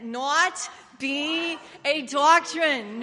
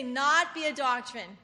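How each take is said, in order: First: Slow, drawn-out Jewish accent on "Not be a doctrine"; a light mock Jewish accent, stretched out. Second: Said in the usual way. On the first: Shown as a demonstration. Preacher demoing a Jewish accent to the congregation, slow and drawn out. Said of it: "Say it with a Jewish accent". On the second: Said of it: "Just everybody say".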